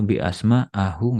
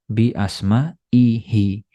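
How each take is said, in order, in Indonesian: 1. Akhiran ini memakai vokal a. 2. Akhiran ini memakai vokal i. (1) "nggak boleh" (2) "dibaca kasroh"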